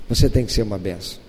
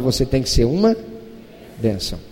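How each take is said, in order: First: Said in the usual way. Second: "uma" held, then "bênção" dropped low and soft after a pause; suspenseful pause before a soft, low "bênção". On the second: Shown as a demonstration. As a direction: hang on "uma", then let "bênção" fall quiet.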